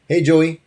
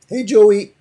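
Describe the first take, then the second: First: The voice stays at its normal pitch. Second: The voice jumps up very high in pitch.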